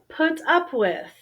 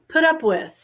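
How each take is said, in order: First: The phrase is said carefully, each word distinct. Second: The phrase is said in a relaxed American way.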